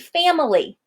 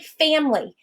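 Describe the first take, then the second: First: The word has three syllables, middle one pronounced. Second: The word has two syllables, said quickly. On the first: The speaker calls it wrong. "If I were going to stress that middle syllable" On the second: The speaker calls it right. "We say it very quickly"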